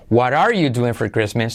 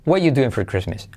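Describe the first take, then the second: First: The word 'are' is fully pronounced with its R. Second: The word 'are' is left out completely. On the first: "primera opción, pronunciando todo" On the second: "omitimos todo el verbo"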